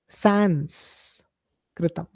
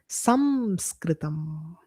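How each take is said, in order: First: The first syllable ends in an 'n' sound. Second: The first syllable ends in an 'm' sound. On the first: The speaker calls it wrong. "is also wrong" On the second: The speaker calls it right. "is the right way to address this"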